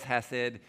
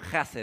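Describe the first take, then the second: First: The word begins with a soft, breathy h. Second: The word begins with a harsh, throaty h. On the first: The speaker calls it wrong. "sometimes you read it as hesed" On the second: The speaker calls it right. "it's a hard H in Hebrew"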